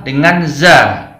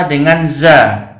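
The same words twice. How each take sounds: Both takes have the same delivery.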